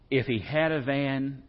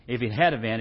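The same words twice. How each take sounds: First: Slow, leaning on "had"; "had" stretched and weighted; stress on had. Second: Said in the usual way. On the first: Shown as a demonstration. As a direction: draw out "if he had a van" and hit "had".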